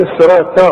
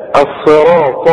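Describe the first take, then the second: First: "الصراط" quickly, with a thin final t; wrong light t. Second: "الصراط" slow, with a heavy final ṭa; heavy emphatic ta. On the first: Retold or imitated. Teacher warns the student, thin light t ending "الصراط". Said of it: "اوعى تقول لي". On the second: Shown as a demonstration. Teacher corrects the student, slow heavy ṭ in "الصراط". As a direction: thicken every sound of "الصراط", slowly. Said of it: "الطاء برضو مفخمة".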